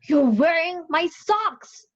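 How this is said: It is said in an outraged tone.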